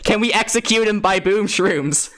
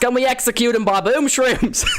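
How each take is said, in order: First: It is said in the speaker's ordinary accent. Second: It is said in a put-on Scottish accent.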